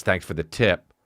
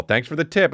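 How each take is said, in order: First: Said in the usual way. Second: Higher, sing-song mock gratitude; mock-chipper rising lilt. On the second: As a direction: parrot the message with sarcastic cheer. Mocks the shitty delivery message.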